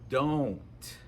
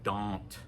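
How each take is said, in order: First: The O vowel is rounded and gliding. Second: The O vowel is flat and unrounded. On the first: The speaker calls it right. "We make a circle, O, with our mouth" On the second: The speaker calls it wrong. "that doesn't sound like a native speaker"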